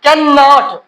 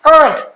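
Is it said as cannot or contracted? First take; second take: full; contracted. First: The full two-syllable form is said. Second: The short one-syllable form is said.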